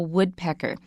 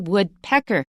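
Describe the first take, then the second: First: The stress falls on the first part, wood. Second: The stress falls on the second part, pecker. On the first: The bird. The speaker calls it right. "We only have stress at the beginning" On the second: A pecker made of wood. The speaker calls it wrong. "we don't say woodpecker"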